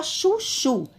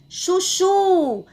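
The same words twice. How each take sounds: First: Said in the usual way. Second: "Chuchu" called high, final "chu" held long; calling out, last syllable stressed. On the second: Shown as a demonstration. Teacher calling the word to show stress, "Chuchu" high with a long last "chu". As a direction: call out "Chuchu" like a name, stretching the end. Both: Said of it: "Vamos chamar o nome chuchu".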